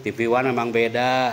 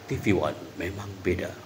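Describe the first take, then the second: First: The voice is strong and forceful. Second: The voice is calm and measured. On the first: The speaker calls it wrong. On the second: The speaker calls it right.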